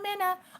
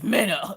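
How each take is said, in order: First: The name is said in a friendly, pleasant tone. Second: The name is said in a sharp, irritated tone. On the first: She is greeting someone politely. "one minute she'll be like, "Oh hi, I'm Minna."" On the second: She is annoyed that her name was mispronounced. "she'll snap"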